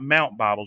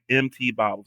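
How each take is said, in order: First: MT is spoken as the word mount. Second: MT is spoken as two separate letters. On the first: The speaker calls it wrong. "It's not Mount bottles. You don't pronounce it like that" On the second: The speaker calls it right. "it's the letter M and the letter T"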